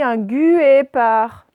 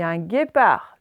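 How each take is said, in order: First: The U after the G is pronounced aloud. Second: The U after the G is not pronounced. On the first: The speaker calls it wrong. "Est-ce que je dis un guépard? Non" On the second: The speaker calls it right. "Le U, il est muet"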